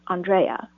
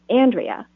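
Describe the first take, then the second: First: The name is pronounced the Greek way. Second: The name is pronounced the American way. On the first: "the Greek way" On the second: "pronounce it the American way"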